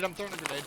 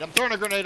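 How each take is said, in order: First: Said in the usual way. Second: Loud urgent callout, pitched up; grenade warning yell. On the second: Real, not acted. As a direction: bark the grenade warning to the team.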